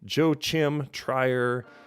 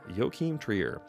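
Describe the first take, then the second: First: The name is read the way English spelling suggests. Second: The name is said in its native, non-English way. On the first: The speaker calls it wrong. "if you do not Google how to say that in advance, you would say" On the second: The speaker calls it right. "but it's apparently"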